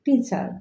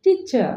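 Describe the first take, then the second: First: "টিচার" as usually said, r at the end; common mispronunciation. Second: "টিচার" said ti-cha, r silent; correct pronunciation. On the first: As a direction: say টিচার with a final r. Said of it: "আমরা উচ্চারণ করি". ("টিচার" শেষে র-সহ প্রচলিত উচ্চারণ) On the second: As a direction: drop the final r of টিচার. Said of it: "correct pronunciation হবে". ("টিচার" শেষে র ছাড়া শুদ্ধ উচ্চারণ) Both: Shown as a demonstration.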